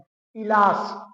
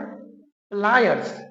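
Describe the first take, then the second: First: A vowel separates the P and L, ending 'las'. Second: P and L join directly, ending 'ayers'. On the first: The speaker calls it wrong. "जबकि ये पिलास नहीं है मेरे भाई" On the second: The speaker calls it right. "ये है प्लायर्स"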